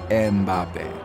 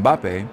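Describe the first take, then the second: First: An extra vowel syllable is added before the b. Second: It starts directly with the m and b cluster.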